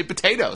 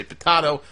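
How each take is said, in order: First: POTATO with a long A, "puh-TAY-toh". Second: POTATO with a broad A, "puh-TAH-toh". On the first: Host comparing ways people say it, POTATO as "potayto". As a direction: say POTATO the usual American way, "potayto". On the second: Host comparing ways people say it, POTATO as "potahto". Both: Shown as a demonstration. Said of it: "some people say potato".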